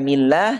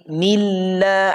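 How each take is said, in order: First: The L passes quickly without a hold. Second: The L is held and stressed briefly. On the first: The speaker calls it wrong. "bukan millah" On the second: The speaker calls it right. "tapi milla, ada jeda di situ"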